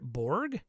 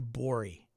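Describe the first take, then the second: First: It is said with an English pronunciation. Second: It is said with a Swedish pronunciation. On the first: "Pirate Bori is English and doesn't" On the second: "Dark Fort has the Swedish pronunciation"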